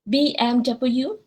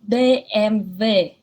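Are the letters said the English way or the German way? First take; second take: English; German. First: The letters are said with English letter names. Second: The letters are said with German letter names. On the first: The speaker calls it wrong. "is it B M W? No" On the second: The speaker calls it right. "it's actually B M W"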